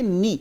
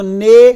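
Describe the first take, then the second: First: The vowel sounds like 'ee'. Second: The vowel sounds like 'eh'. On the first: The speaker calls it right. "इसको मारूफ बोलेंगे नी" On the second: The speaker calls it wrong. "इसको ने ऐसे नहीं बोलना, मजहूल नहीं बोलना"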